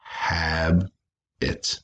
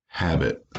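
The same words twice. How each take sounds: First: "hab-it" slowly, one syllable at a time; long pause between the halves of "hab-it"; broken by syllable. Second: Said in the usual way. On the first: Shown as a demonstration. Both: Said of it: "break them by syllable".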